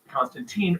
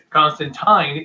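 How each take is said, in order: First: The name is said the American way. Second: The name is said the original way. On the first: This is a mispronunciation that spread through adaptations. The speaker calls it wrong. "in America, it was mispronounced Constantine early on" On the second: This is the character's actual name. The speaker calls it right. "Constantine is his actual name"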